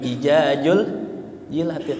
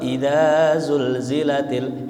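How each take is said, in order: First: The z sounds are pronounced as j. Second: The z sounds are pronounced as z.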